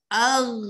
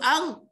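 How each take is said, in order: First: The final consonant is held smoothly and prolonged. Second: The final consonant is cut off with a bounce. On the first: The speaker calls it right. "Ghain tu kena sebut dengan lanjut" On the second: The speaker calls it wrong. "Kalau sebut dengan terkejut dia jadi qalqalah ... gitu tak boleh"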